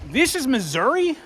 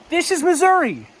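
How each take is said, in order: First: Asks it with rising wonder, almost not believing; a stunned question, the pitch rising at the end; disbelieving question. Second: Much higher, a touch louder, a sure falling answer; awed exclamation. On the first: Hiker at the gorge, in disbelieving wonder. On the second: Hiker answers his own question, awed and sure. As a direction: answer yourself in delighted awe. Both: Real, not acted.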